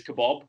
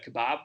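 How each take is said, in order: First: KEBAB ending like "bob"; American "ah" vowel in kebab; friend's American pronunciation. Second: KEBAB ending in a short "a", like "cab"; short-a British kebab; British pronunciation. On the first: Retold or imitated. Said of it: "our friend says kebab". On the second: Shown as a demonstration. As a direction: say kebab the British way, "kuh-BAB". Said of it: "I think the other one was".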